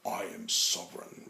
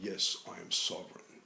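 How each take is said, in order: First: It sounds arrogant and superior. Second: It sounds calm and humble.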